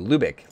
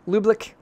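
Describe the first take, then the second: First: It has no extra l sound: lu-bick. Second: It has an extra l sound: lub-lik. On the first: The speaker calls it right. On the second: The speaker calls it wrong.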